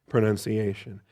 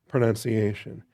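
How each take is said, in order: No difference in how they are said.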